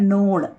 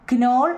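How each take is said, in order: First: The word begins with an N sound, no K. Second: The word begins with a spoken K sound. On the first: The speaker calls it right. "കെ അവിടെ silent ആണ് കേട്ടോ" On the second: The speaker calls it wrong. "ക്നോൾ എന്ന് പറയില്ല കുഞ്ഞുങ്ങളെ"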